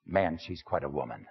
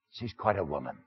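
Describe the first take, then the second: First: Softer, knowing and appreciative; confiding. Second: Softer, a knowing aside; confiding. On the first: Man confiding again to the congregation about his woman, softly. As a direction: drop the voice and savour it. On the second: Man confiding to the congregation about his woman, softly. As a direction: lean in and confide it quietly. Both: Acted.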